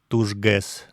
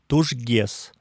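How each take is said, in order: First: The g before e stays hard. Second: The g before e is softened. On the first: This is the textbook pronunciation. "вместо «тужгес»" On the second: This is how most native speakers say it. "Говорят «тужгес»"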